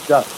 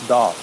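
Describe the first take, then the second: First: The vowel rhymes with does. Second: The vowel rhymes with moth. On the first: The speaker calls it right. "It should be pronounced doth, like D U T H" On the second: The speaker calls it wrong. "should not be pronounced doth"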